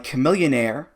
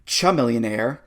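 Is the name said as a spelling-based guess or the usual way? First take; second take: usual; spelling guess. First: The name is said in its usual pronunciation. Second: The name is sounded out as a first-sight guess.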